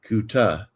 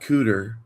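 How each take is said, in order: First: The syllable sounds like 'kuta', with no r. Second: The syllable sounds like 'cooter', ending in r. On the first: The speaker calls it right. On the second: The speaker calls it wrong. "So not cooter"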